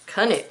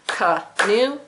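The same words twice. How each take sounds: First: Said in the usual way. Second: "Canoe" in two separate beats, ca-noe, second one rising; syllable-by-syllable check. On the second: Shown as a demonstration. Teacher double-checking the syllable count, "Canoe" broken in two. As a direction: split "Canoe" between syllables and lift the end. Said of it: "Double check".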